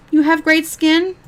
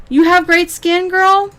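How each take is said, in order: First: Slow, higher, disbelieving rise; incredulous question. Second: Higher, a touch louder sneering parrot; mocking echo. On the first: Real, not acted. Vlogger questioning the streamer's skin claim, slow incredulous rise. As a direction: ask it slowly, not buying it for a second. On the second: Vlogger mocking the streamer's claim about her skin, high sneering echo. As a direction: throw her own words back at her. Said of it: "And then you talk about your skin".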